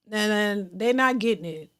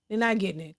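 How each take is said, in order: First: Said in the usual way. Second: Much softer, trailing echo; quiet aside. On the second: Real, not acted. Host repeats her point to the chat as a soft aside. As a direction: mutter it again under the breath.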